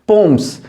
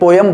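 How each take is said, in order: First: The word sounds like 'poms', one syllable. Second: The word sounds like 'po-yam', two syllables. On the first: The speaker calls it right. "इसका pronunciation होता है वो पोम्स होता है" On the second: The speaker calls it wrong. "पोयम नहीं होता है, हम इसे पोयम पढ़ते हैं"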